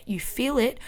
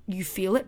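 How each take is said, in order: First: "feel" lifted higher in the voice; "feel" said higher as a firm reminder; stress on feel. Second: Said in the usual way. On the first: Shown as a demonstration. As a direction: lean hard on "feel". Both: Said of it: "repeated reminder".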